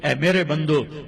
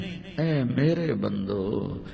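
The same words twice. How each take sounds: First: It is said in a plain, cold tone. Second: It is said in a warm, loving tone. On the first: The speaker calls it wrong. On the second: The speaker calls it right.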